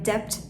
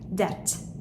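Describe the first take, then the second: First: The B sound is pronounced in the word. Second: The B sound is left out of the word. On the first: The speaker calls it wrong. "yani debt demiyoruz" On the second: The speaker calls it right. "Debt diyoruz"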